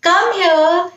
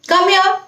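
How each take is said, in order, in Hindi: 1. यह प्यार और स्नेह से कहा गया है। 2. यह बिना किसी भाव के सपाट तरीके से कहा गया है। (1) "प्यार से जैसे कम हियर" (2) "अगर कोई एक्सप्रेशन नहीं देते"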